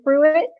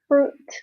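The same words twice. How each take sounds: First: The U and I are said as separate sounds. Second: The U and I are said as one sound. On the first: The speaker calls it wrong. "we don't say fruit" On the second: The speaker calls it right. "the U and the I make one sound"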